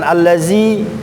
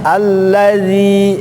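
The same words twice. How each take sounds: First: The middle consonant is a different, non-dental sound. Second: The middle consonant has the tongue tip at the teeth. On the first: The speaker calls it wrong. "jangan allazi ... udah pasti beda hurufnya" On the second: The speaker calls it right. "Terus bagaimana? Allazi"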